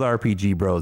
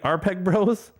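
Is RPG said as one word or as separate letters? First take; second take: separate letters; one word. First: RPG is spoken as three separate letters. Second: RPG is run together like one word. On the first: The speaker calls it right. "That's better" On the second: The speaker calls it wrong. "it's like JPEG"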